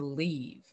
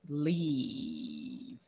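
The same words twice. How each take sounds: First: The word is said plainly with a short vowel. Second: The word is said with a long, drawn-out vowel.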